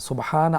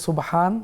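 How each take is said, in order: Both takes have the same delivery.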